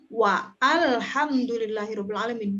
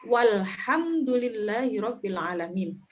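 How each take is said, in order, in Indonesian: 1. Hamzah memisahkan kedua kata itu. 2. Kata-kata itu menyambung tanpa hamzah. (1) "Bukan wa alhamdulillahirabbil alamin" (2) "hamzah wasolnya hilang menjadi walhamdulillahirabbil alamin"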